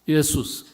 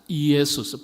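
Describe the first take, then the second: First: The name is said quickly, syllables run together. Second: The name is said slowly, syllable by syllable.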